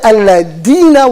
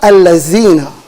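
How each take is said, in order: First: The middle consonant is a d sound. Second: The middle consonant is a z sound. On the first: "al-ladina with a D, and that's also wrong" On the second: "Either they say الَّذِينَ with a zai"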